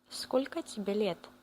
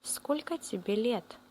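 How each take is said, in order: Both takes have the same delivery.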